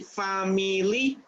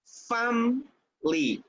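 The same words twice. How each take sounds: First: The word is said with three syllables. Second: The word is said with two syllables. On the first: The speaker calls it wrong. "You don't say family" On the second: The speaker calls it right. "only two syllables"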